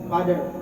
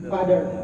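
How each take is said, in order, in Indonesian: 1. Aksen Amerika, dengan konsonan tengah yang mirip D. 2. Aksen Amerika, dengan konsonan tengah yang mirip D.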